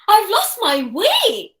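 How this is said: It is said in a happy tone. "in a happy way"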